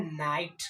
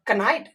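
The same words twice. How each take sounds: First: नाइट said with no k sound; silent k. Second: कनाइट with the k spoken aloud; wrong k sounded. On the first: Teacher gives the right reading नाइट. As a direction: drop the k and say नाइट. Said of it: "इस word का जो उच्चारण होता है वो होता है नाइट". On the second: Teacher shows the wrong reading कनाइट. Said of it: "नहीं". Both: Shown as a demonstration.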